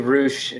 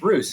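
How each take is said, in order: First: The name ends with an 'sh' sound. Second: The name ends with an 's' sound. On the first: This is how the family says it. "it's supposed to be Roosh from like my like my fam" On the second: This is how friends abroad say it. "they've been like, it's Roos"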